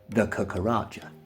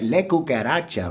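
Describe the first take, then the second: First: It is said with a South East London accent. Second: It is said with a Spanish-style accent.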